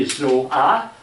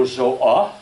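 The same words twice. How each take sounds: First: "Zoa" drawn out, rising on the final A; first tone of Zoa. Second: "Zoa" louder, without the long rise; second tone of Zoa. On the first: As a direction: stretch "Zoa" and lift its end. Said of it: "depending if you, we say". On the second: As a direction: say "Zoa" firmly and louder, end not lifted. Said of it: "you have two meanings". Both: Shown as a demonstration.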